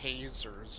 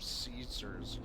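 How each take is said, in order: First: The word begins with a K sound. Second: The word begins with an S sound. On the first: The speaker calls it wrong. "she pronounces it Kaisers" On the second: The speaker calls it right. "instead of Caesars"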